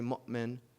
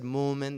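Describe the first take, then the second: First: It is said with a glottal stop. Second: It is said without a glottal stop. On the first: This is the Tamimi way of saying it. "they didn't say mu'min" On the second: This is the Hijazi way of saying it. "Like they said mu'min, ... they didn't pronounce the Hamza"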